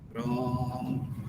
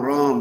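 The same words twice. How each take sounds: First: Ram is repeated even more slowly. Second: Ram is repeated very fast.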